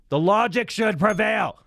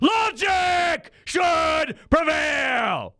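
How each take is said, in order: First: It is said in a calm, neutral tone. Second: It is said in an angry, emotional tone.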